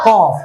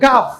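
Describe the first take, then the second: First: The letter name is said as 'qof'. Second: The letter name is said as 'kaf'. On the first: The speaker calls it right. "এটা কি কফ নাকি কাফ কফ" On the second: The speaker calls it wrong. "এটাকে অনেকে বলে ফেলে কাফ"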